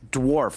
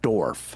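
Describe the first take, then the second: First: The W sound is clearly pronounced. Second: The W sound is left silent. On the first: The speaker calls it right. "There's a W in there" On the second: The speaker calls it wrong. "not dwarf"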